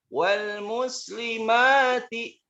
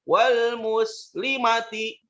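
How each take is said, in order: First: The vowel after the m is drawn out long. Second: The vowel after the m is cut short. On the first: The speaker calls it right. "ini pun dibaca panjang" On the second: The speaker calls it wrong. "Jangan dibaca"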